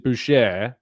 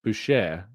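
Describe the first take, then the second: First: Boucher said "boo-SHAY"; French pronunciation. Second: Boucher again as "boo-SHAY"; French pronunciation. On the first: Answering the chat, he says boucher "boo-SHAY". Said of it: "if they pronounce it boucher". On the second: Telling the chat to say boucher "boo-SHAY". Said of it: "then you pronounce it boucher". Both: Shown as a demonstration.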